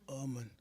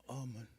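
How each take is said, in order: No difference in how they are said.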